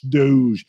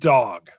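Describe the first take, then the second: First: The name is said with a French-style ending. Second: The name is said like the English word dog. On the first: The speaker calls it wrong. "I was trying to be all French" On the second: The speaker calls it right. "it's Dave Dog, pronounced that way"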